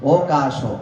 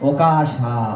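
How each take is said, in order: First: The word ends in a short vowel. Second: The word ends in a long 'aa' vowel. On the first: The speaker calls it wrong. "ওকাশ এভাবে হবে না" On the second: The speaker calls it right. "ওকাশা আকারান্ত করে"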